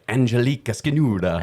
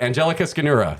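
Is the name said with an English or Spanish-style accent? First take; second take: Spanish-style; English. First: The name is said with a Spanish-style accent. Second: The name is said with a plain English accent. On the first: The speaker calls it wrong. "I was very nervous that it was going to be like" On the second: The speaker calls it right. "And I said your name right"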